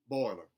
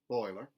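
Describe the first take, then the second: First: The oi vowel loses its final glide. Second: The oi vowel keeps its full glide. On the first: "instead of" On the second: "leave the oi alone and not cut off the final element of it"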